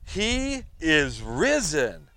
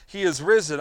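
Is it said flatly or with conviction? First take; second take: with conviction; flatly. First: It is said with strong conviction. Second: It is said flatly, without feeling.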